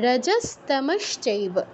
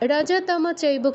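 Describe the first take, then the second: First: The s and sh sounds are clearly pronounced. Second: The s and sh sounds are left out. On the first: The speaker calls it right. "শটা যুক্ত যুক্ত থাকলে শটা আমরা skip করে যাই, এটা করলে হবে না" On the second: The speaker calls it wrong. "রজতম চৈব কেউ বলবো না"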